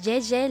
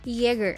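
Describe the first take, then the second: First: It is pronounced with French sounds, like 'zhay-zhay'. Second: It is pronounced with German sounds, like 'yay-ger'. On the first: It treats the name as a French word. The speaker calls it right. "the brand pronounces it as though it were a French word" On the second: It treats the name as the German word for hunter. The speaker calls it wrong. "means hunter, you could anticipate pronouncing it that way"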